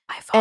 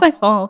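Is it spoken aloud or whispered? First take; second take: whispered; aloud. First: It is whispered quietly. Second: It is spoken aloud in a normal voice.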